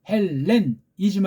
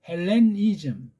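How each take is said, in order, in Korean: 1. ni 음절에는 강세가 없습니다. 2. 강세는 ni 음절에 옵니다. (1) "헬, 렌 한 다음에 이즘" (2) "니자에 힘을 줘서 읽으면 안 됩니다"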